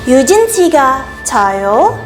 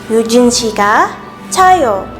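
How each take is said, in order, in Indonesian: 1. Suara naik di akhir, seperti pertanyaan. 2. Suara turun di akhir, seperti pernyataan. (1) "Apakah Yujin tidur?" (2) "유진 tidur"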